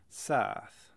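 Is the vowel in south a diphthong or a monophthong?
monophthong. The vowel is a single lengthened sound.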